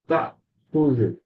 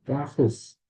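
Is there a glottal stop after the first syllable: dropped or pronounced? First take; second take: pronounced; dropped. First: A glottal stop is heard after the first syllable. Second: No glottal stop is heard after the first syllable. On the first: This is the standard formal form. "Fushalnya itu tak khuzu" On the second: This is the Egyptian colloquial form. "hamzahnya dihilangkan. Tahus gitu aja"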